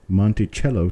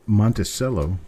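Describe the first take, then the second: First: The middle consonant is a ch sound. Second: The middle consonant is an s sound. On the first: "type in a C H" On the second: "type in an S"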